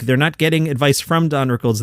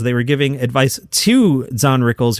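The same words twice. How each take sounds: First: "from" punched as the contrast word; stress on FROM. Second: "to" set apart and emphasized; stress on TO. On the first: Host correcting who advised Don Rickles, stress on "from". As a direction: hit "from" to rule it out. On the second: Host clarifying who advised Don Rickles, stress on "to". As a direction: land firmly on "to" as the correction. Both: Real, not acted. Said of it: "I did not misspeak".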